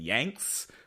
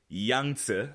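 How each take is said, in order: First: The name is said like the word 'Yanks'. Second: The name is said like the river 'Yangtze'. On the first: This is a childhood reading of the name. The speaker calls it wrong. "I pronounce his name Yanks because I read this name when I was a child" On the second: This is how the river's name is pronounced. The speaker calls it right. "I think is how you pronounce it in Mandarin"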